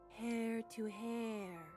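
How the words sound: It sounds eerie and spooky.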